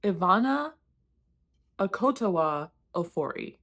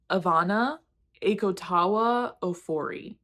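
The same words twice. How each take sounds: First: "Akotawa" with the stress moved forward to KO, "a-KO-to-wa"; corrected emphasis. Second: "Akotawa" with the stress on TA, drawn out as "ay-ko-TAH-wa"; misplaced emphasis. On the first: Reader copying the author's own clip, "Akotawa" stressed on KO. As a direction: say "Akotawa" as "a-KO-to-wa", the ending light. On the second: Reader attempting an author's unfamiliar name, "Akotawa" stressed wrongly on TA. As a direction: tentatively sound out "Akotawa" as "ay-ko-TAH-wa". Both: Shown as a demonstration. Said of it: "putting the emphasis on the wrong place".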